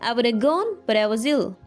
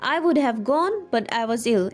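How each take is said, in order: First: 'Would have' is reduced to a single word, 'woulda'. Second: 'Would have' is said fully, both words clear. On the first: "you can say" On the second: "Instead of saying this"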